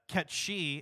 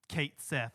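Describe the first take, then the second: First: The name sounds like 'ketchy', two short syllables. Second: The name sounds like 'kate sith', two separate words. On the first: This follows the original Gaelic name. The speaker calls it right. "I'm gonna pronounce it that way" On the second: This is the official pronunciation now. The speaker calls it wrong. "I refuse to accept Kate Sith"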